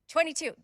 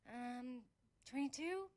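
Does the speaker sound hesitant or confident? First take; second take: confident; hesitant. First: It is said firmly, with confidence. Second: It is said hesitantly, unsure.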